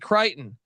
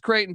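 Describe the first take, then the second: First: The name is said like 'Crichton'. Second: The name is said as 'Creighton'. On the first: The speaker calls it wrong. "He would say Crichton" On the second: The speaker calls it right. "didn't know how to pronounce Creighton"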